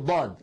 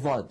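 First: The first consonant is a true ḍād, from the tongue's side. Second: The first consonant sounds like ẓāʾ, interdental. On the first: The speaker calls it right. "في شيء اسمه ضاد" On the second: The speaker calls it wrong. "بعض الناس يخرجها من مخرج الظاء"

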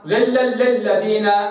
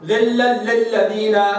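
No difference in how they are said.

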